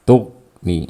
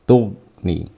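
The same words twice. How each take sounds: First: The gh sound is stopped short abruptly. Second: The gh sound is stopped short abruptly.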